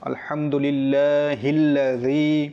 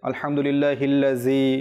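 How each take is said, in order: First: The consonant in lladhi is a soft dh sound. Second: The consonant in lladhi is a j sound. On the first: The speaker calls it right. "এখানে লাল এই হরফটি রয়েছে" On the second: The speaker calls it wrong. "কিন্তু অনেকে ভুল করে"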